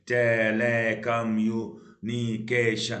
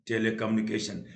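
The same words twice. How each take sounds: First: telecommunication slow, every syllable drawn out. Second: Said in the usual way. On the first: Shown as a demonstration. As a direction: intone telecommunication evenly, beat by beat. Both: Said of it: "तो कई सारे हो गए".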